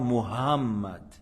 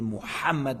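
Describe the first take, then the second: First: The middle h sound is dropped. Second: The middle h sound is clearly breathed. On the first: The speaker calls it wrong. "c'est pas Muhammad" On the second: The speaker calls it right. "avec le ha"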